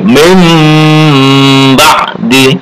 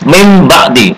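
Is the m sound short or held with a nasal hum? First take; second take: held humming; short. First: The m sound is held with a long nasal hum. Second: The m sound is short, with little nasal hum. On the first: The speaker calls it right. "tapi mim ba'di" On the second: The speaker calls it wrong. "dengung tidak cukup mim ba'di"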